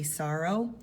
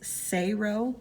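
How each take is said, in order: First: The first vowel sounds like 'saw'. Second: The first vowel sounds like 'say'. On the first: The speaker calls it wrong. "Most people say it wrong" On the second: The speaker calls it right. "It's Sayro"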